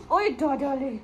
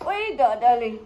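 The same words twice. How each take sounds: First: Cooing call to dog. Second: Louder cooing call. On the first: Calling dog in kitchen. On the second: Calling dog again, louder. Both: Real, not acted.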